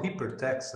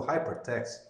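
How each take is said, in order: First: Hypertext said Portuguese-style, no h, ee-per-teks; Portuguese-style pronunciation. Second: Hypertext said the English way, with h and "hai"; English pronunciation. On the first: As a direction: say hypertext as a Brazilian would, dropping the h. (hypertext aportuguesado, sem o h, "iperteks") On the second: (hypertext em inglês, com h aspirado, "haipertext") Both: Shown as a demonstration. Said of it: "pronuncio metade português, metade inglês".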